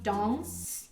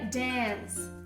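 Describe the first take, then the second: First: A British accent with a long, closed a. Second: An American accent with a short, open a. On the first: "um britânico falaria" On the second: "E um americano falaria dance"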